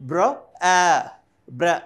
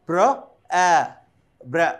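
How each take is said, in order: The two takes are said the same way.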